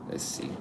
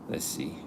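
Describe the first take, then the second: No difference in how they are said.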